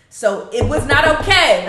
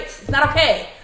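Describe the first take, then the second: First: "okay" hit loud and falling; firm emphasis. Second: "okay" stressed with a falling close; firm emphasis again. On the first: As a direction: lean hard on "okay", louder. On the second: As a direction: repeat it, pressing on "okay". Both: Real, not acted. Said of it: "Let me, let me reiterate".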